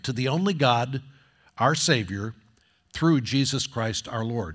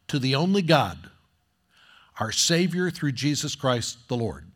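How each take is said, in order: First: There is a pause after 'Savior'. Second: There is no pause after 'Savior'.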